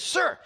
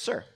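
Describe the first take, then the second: First: It is said loudly, with a raised voice. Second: It is said at a quiet, normal volume.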